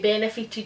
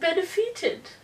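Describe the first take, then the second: First: It is said in her ordinary accent. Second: It is said in a posh accent.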